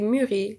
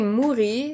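First: The first vowel is a front rounded 'u'. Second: The first vowel is a back 'oo' sound. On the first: The speaker calls it right. "you say mûri" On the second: The speaker calls it wrong. "You don't say mouri"

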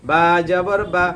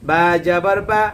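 Both takes have the same delivery.

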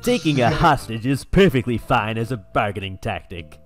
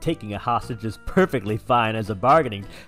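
First: It is read as a Zapp Brannigan impression. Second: It is read in a normal voice.

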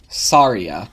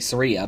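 First: The name is said in a slower, fuller form. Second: The name is said in a quicker, clipped form. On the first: "if I'm speaking slower, then I say Saria" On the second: "if I'm speaking faster, I'll say Saria"

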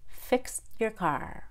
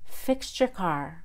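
First: The T is held without being released. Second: The T and Y blend into a CH sound. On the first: "then the held T" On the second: "First, I'll do the CH"

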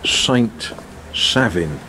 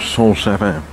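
First: The name is pronounced with English sounds. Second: The name is pronounced with French sounds.

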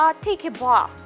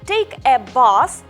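First: The article is a weak vowel joined to 'take'. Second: The article is said clearly as its own word. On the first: The speaker calls it right. "здається, що це продовження попереднього слова" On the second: The speaker calls it wrong. "не"

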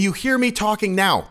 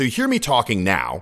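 First: The whole voice is shifted up higher. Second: The voice stays at a normal pitch level. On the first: "if I were to raise it" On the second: "So you hear me talking now"

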